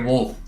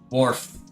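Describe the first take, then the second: First: The word is said like 'wolf', without r. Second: The word is said with an r sound. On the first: "I have to say it like wolf" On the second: "it with my normal American accent"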